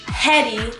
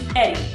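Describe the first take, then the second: First: The name starts with an audible H sound. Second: The name starts with a vowel, no H. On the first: The speaker calls it wrong. "it's not Hetty, there's no H" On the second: The speaker calls it right. "it's actually silent, so it's pronounced Eddie"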